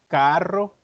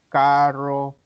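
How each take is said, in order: First: The r is a strong trill. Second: The r is retroflex, not trilled. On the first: This is the border-region way of speaking. "la R de nosotros o la R es muy vibrante" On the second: This is the metropolitan-area way of speaking. "en San José podemos escuchar a ciertas personas decir"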